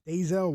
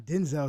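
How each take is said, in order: First: Denzel said as DAY-zel, first N dropped; altered pronunciation. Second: Denzel said with a short IN in the first syllable, like DIN-zel; standard pronunciation. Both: Shown as a demonstration. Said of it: "how you pronounce his name".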